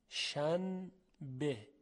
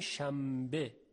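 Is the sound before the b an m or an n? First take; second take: n; m. First: An n sound comes before the b. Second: An m sound comes before the b.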